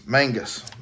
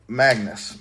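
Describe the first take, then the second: First: Mangus said MANG-gus, an n before the g; correct name. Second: Magnus said as in magnet, a plain g after "ma"; wrong name first. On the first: Correcting a buddy's name, right Mangus said clearly. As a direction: Mangus with the nasal "mang" first syllable. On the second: Correcting a buddy's name, first the wrong Magnus. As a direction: Magnus with no n sound, MAG-nus. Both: Shown as a demonstration. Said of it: "Not Magnus".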